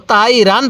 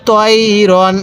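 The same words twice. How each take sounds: First: "তাই রান" with open a vowels; wrong light vowels. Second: "তই রন" with rounded o-like vowels; correct heavy vowels. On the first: Teacher warns learners off this, "তাই রান" with open a. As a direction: flatten the heavy o to a in "তাই রান". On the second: Teacher models the correct reading, "তই রন" with rounded vowels. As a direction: keep "তই রন" heavy, without an open a. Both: Shown as a demonstration. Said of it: "কেউ তাই রান পড়ব না".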